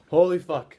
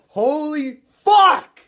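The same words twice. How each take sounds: First: Loud, awed disbelief; first stunned gasp of disbelief; stunned exclamation. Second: Very high, loud, drawn-out scream; ecstatic scream. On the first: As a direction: blurt it out in shock. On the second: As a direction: let it rip in sheer disbelief. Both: Real, not acted. Stunned after the title win.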